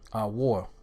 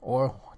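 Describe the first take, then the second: First: The word begins with an 'a' before 'wor'. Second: The word begins directly with an 'o' sound. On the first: The speaker calls it right. "the word is a war" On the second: The speaker calls it wrong. "that's the pronunciation, that's incorrect"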